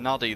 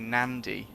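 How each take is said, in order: First: It is said with no 'n' before the 'd'. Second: It is said with an 'n' before the 'd'. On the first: The speaker calls it wrong. "I was saying nuddy the whole time" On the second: The speaker calls it right. "it's actually Nandy. How come it's got a silent N?"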